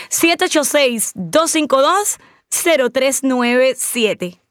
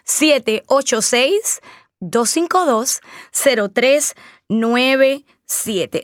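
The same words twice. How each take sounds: First: Slow phone number. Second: Number said slowly, digit by digit; slow phone number. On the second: Host repeating her phone number for listeners, slowly. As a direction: spell out each digit so they can dial. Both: Shown as a demonstration. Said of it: "es el número a marcar".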